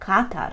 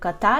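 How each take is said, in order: First: The stress falls where Polish places it. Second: The stress falls as in the city name. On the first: "тільки з польським наголосом" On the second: "майже як катар, як місто"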